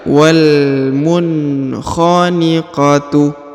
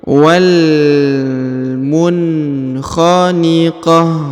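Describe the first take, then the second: First: The word ends with a full tu syllable. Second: The word ends softly with an h sound. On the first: The reader continues to the next words. "Kalau kita lanjut" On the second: The reader stops at this word. "Kalau kita berhenti"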